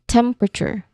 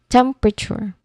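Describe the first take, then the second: First: The word is said with three squeezed syllables. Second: The word is said with three squeezed syllables.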